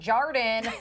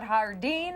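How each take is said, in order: First: It is said with a local Wisconsin pronunciation. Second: It is said with a French pronunciation.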